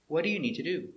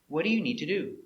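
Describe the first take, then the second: The two takes are said the same way.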